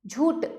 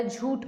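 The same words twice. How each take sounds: First: झूठ ending in a hard "t"; झूठ said as "jhoot"; wrong unaspirated ending. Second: Said in the usual way. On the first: Shown as a demonstration. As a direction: drop the breath from ठ in झूठ. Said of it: "झूठ नहीं होता". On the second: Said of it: "झूठ होता है".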